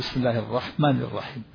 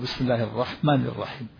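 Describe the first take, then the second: First: The long vowels are cut short. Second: The long vowels are cut short.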